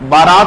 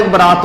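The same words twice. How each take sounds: First: Louder, long "baa" in बारात; बारात opening on a stretched aa; long first vowel. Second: Short "ba" in बरात; बरात with a quick first syllable; short first vowel. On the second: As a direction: say बरात as ba-raat. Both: Shown as a demonstration. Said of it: "एक ही शब्द है".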